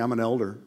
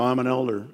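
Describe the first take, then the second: First: Smug resume boast. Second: Smug "I'm an elder" with a proud fall on "I'm"; lightly mock the self-important boaster; pompous elder. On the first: Pretend. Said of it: "put it on your resume". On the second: Preacher mocking a domineering elder, smug proud boast. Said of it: "so you can domineer and go".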